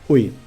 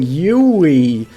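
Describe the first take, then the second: First: The vowels are flat with little texture. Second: The vowels are rich, textured and vibrating. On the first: The speaker calls it right. "You want it to sound as flat as possible" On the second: The speaker calls it wrong. "There's too much richness in those vowels. You go Yui, like your mouth is vibrating throughout the entire thing"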